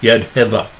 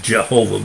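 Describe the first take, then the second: First: The name begins with a Y sound. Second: The name begins with a J sound. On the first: "but it's Yadheva" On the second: "The English pronunciation is Jehovah"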